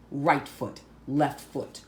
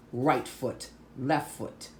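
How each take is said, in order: Both takes have the same delivery.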